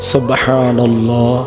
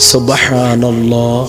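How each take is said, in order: Both takes have the same delivery.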